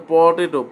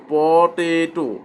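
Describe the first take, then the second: First: Said in the usual way. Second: পটেটো slowly, pooo-teee-tooo, every vowel held; drawn-out syllables. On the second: Shown as a demonstration. Teacher shows the pull in open syllables, পটেটো drawn out. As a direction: stretch each syllable of পটেটো. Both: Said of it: "এই যে একটা টান আছে".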